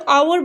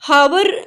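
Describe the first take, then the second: First: The word begins with a vowel sound. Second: The word begins with an h sound. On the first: The speaker calls it right. "तो आवर बोला जाएगा" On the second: The speaker calls it wrong. "हावर नहीं बोला जाएगा क्योंकि एच silent है"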